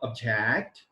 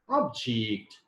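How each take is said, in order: First: It is said with the verb pronunciation. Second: It is said with the noun pronunciation. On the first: The word is used as a verb. "when I say verb" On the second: The word is used as a noun. "and when I say noun"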